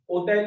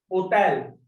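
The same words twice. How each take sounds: First: Said in the usual way. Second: "Hotel" begun straight on the O, H left silent. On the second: Shown as a demonstration. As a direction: drop the H of "Hotel" as in French. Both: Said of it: "We are not pronouncing this H".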